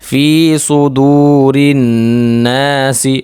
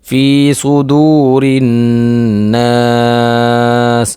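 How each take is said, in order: First: The last word ends with a short i vowel. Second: The last word ends on the s sound. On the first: The reading continues without stopping. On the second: The reader stops at the end of the verse.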